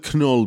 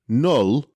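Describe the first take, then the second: First: The name starts with a pronounced K sound. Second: The name starts with a plain N sound. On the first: The speaker calls it wrong. "they probably want us to pronounce the K" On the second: The speaker calls it right. "you are probably right. Let me get it right"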